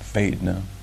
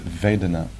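First: It is said in a Southern American accent. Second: It is said in a neutral accent.

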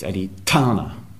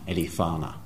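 First: The middle consonant is a strong aspirated t. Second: The middle consonant is a soft th sound. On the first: The speaker calls it right. "The H means aspirate" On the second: The speaker calls it wrong. "It's not thana"

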